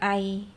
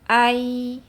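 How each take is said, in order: First: The final y sound is cut short. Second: The final y sound is held and flowing. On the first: The speaker calls it wrong. "Jangan ai" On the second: The speaker calls it right. "tapi ai, ya, tegakkan"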